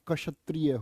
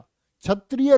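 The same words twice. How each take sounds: First: The word begins with a 'ksh' sound. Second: The word begins with a 'chh' sound. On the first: The speaker calls it right. "होता है" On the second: The speaker calls it wrong. "नहीं होता"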